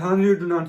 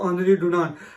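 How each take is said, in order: First: The name starts with an H sound. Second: The name starts with a vowel sound. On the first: The speaker calls it wrong. "शायद से मैं इस आदमी का नाम सही से प्रोनाउंस नहीं कर पा रहा" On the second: The speaker calls it right. "आनरी को वो लोग आनरी और डुनांट के एंड पे टी साइलेंट होता है"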